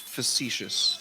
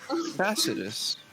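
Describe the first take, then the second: First: The middle has a 'sh' sound. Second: The middle sounds like 's' as in 'facet'. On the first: "But you pronounce it facetious" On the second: "like facet"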